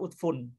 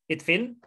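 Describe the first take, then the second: First: The word begins with a u vowel. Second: The word begins with an i vowel. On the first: The speaker calls it wrong. "tapi ulil absor itu utfun. Ini yang salah" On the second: The speaker calls it right. "harusnya itfin"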